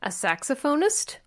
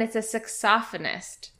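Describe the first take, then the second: First: Saxophonist with stress on SAX and a long o, sax-o-PHONE-ist; American saxophonist. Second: Saxophonist stressed on the second syllable, sax-OPH-o-nist; British saxophonist. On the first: Answering what North Americans call the player, American saxophonist. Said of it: "tell us what that word would be in North American English". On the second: Telling friends the English word, British saxophonist. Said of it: "In England". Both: Shown as a demonstration.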